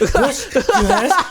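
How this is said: It is said in a dainty, effeminate voice.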